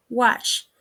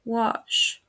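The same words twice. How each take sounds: First: "wash" with a flat ah, wahsh; "wash" short, with open front a; mispronounced. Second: "wash" with a back, rounded vowel; "wash" with drawn-out back vowel; correct pronunciation. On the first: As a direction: say "wash" with a Spanish a. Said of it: "mispronounced is". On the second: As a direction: say "wash" as wawsh. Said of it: "The correct pronunciation is". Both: Shown as a demonstration.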